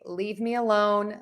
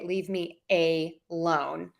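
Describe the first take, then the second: First: The 'a' before 'lone' is unstressed. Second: The 'a' before 'lone' is stressed. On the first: It asks to be left in peace. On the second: It asks for money to be lent.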